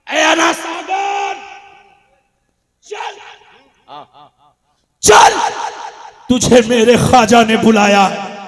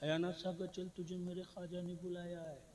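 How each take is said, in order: First: It is said in a forceful, commanding tone. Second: It is said in a plain, mild tone.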